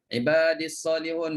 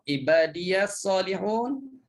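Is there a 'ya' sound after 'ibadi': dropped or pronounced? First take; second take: dropped; pronounced. First: The ya sound after ibadi is not heard. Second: A ya sound with an a vowel follows ibadi.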